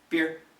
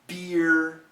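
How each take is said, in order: First: It is said quickly as one short syllable. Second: It is said slowly with a gliding vowel. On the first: "most Americans will say these words very quickly. No diphthong, one syllable" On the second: "if we say it slowly, we get that diphthong"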